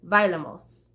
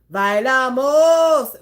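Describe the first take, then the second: First: Said in the usual way. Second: "Bailamos" drawn out slowly and loud, sung like the record; song pronunciation. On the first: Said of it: "if you were saying bailamos in a sentence". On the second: Shown as a demonstration. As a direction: stretch "Bailamos" like the pop song. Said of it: "the emphasis is on the wrong syllable".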